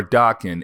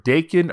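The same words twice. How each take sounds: First: "Daken" said as DAH-ken; alternative pronunciation. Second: "Daken" said as DAY-ken; first pronunciation. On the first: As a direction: say "Daken" with an open AH vowel in the first syllable. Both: Shown as a demonstration. However you want to pronounce it.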